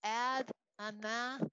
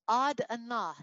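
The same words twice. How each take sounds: First: AD ANAH read as it looks, flat English A in both words; spelling-based pronunciation. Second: AD ANAH with open "ah" sounds, like "odd ah-NAH"; correct Hebrew pronunciation. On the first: Teacher showing how the Hebrew word looks on paper, misleadingly spelled. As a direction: say AD ANAH slowly with the A of "cat". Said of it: "it looks like". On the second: Teacher telling the class how to say the Hebrew word, correctly pronounced. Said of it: "You say". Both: Shown as a demonstration.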